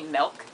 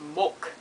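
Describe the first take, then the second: First: The vowel is said in a plain accent. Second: The vowel is said in a New Zealand accent. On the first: "they don't say milk" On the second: "they say milk"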